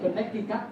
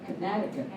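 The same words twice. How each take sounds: First: The stress is not on the second syllable. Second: The stress is on the second syllable. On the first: The speaker calls it wrong. "chứ không phải Connecticut nhé" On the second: The speaker calls it right. "chúng ta nhấn vào âm số hai"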